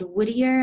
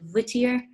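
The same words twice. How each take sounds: First: The word begins with a W glide. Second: The word begins with a V fricative. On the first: "they're from a town called Whittier" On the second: "she calls it Whittier"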